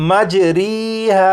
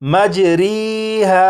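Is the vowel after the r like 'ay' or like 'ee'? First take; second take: ee; ee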